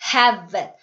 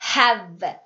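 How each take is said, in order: Both takes have the same delivery.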